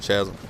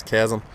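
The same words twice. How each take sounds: First: Chasm said as "SHAZ-um" or "CHAZ-um"; soft CH mispronunciation. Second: Chasm said as "KAZ-um"; hard K pronunciation. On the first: Gamer owning up to his old mistake, Chasm with a soft CH. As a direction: open Chasm on a soft sh or ch sound. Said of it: "when I was calling it Chasm". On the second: Gamer accepting a viewer's correction, Chasm with a hard K. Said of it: "Thank you, Murky Man, for correcting my stupidity". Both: Shown as a demonstration.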